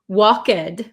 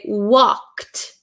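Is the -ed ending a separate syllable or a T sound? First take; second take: separate syllable; T sound. First: The ending is an extra syllable. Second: The ending is a short T sound. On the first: The speaker calls it wrong. "we don't say walk, walked" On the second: The speaker calls it right. "We say walked"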